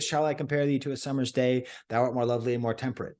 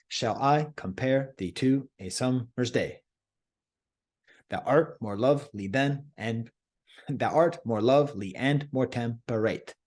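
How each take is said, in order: First: Rushed flat reading of Shakespeare; hurried careless verse reading; wrong reading. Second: Slow, short-long meter, stressing "I" in "Shall I compare"; measured da-DUM verse rhythm; iambic reading. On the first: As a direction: rattle off "Thou art more lovely and more temperate" too fast with no meter. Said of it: "But that's not the right way to read it". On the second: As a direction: read it in iambic pentameter, "Shall I com-PARE thee TO a SUM-mer's DAY". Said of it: "these first lines are to be read like this". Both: Shown as a demonstration.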